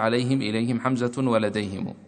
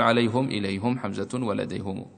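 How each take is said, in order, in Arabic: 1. بعد الهاء كسرة. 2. بعد الهاء ضمة. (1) "والأولى أن يلفظ بالثلاثة في البيت مكسورات الهاء" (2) "ولكن لا مانع أن تقول"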